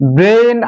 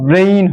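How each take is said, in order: First: The vowel is a plain, steady e sound. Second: The vowel glides from e toward i. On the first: The speaker calls it wrong. "ব্রেন আমরা বলি" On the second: The speaker calls it right. "Actually উচ্চারণটা ব্রেইন হয়"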